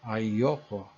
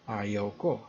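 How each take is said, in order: First: It is contracted into one word. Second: It is said as two full words. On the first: The speaker calls it right. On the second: The speaker calls it wrong.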